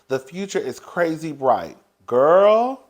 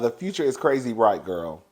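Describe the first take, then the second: First: A break separates 'bright' from 'girl'. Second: 'Girl' runs on directly after 'bright'. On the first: 'Girl' starts a new sentence. The speaker calls it wrong. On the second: 'Girl' ends the same sentence. The speaker calls it right.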